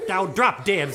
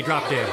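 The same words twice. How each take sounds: First: Emphatic, punched-out words; rude retort. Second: Said in the usual way. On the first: Acted. Cursed sister spoiling mommy's joy, emphatic rude retort. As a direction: land on each word insolently.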